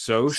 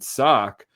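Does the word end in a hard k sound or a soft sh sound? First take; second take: soft sh; hard k. First: The word ends in a soft sh sound. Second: The word ends in a hard k sound. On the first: This is the accepted pronunciation. The speaker calls it right. "I think it's pronounced soch" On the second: This is a made-up mispronunciation. The speaker calls it wrong. "we pronounced it sock"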